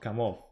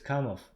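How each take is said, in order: First: It is said the anglicized, non-Russian way. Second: It is said the native Russian way. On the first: The speaker calls it wrong. "not Kamov" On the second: The speaker calls it right. "the real pronunciation of this uh, manufacturer is Kamov"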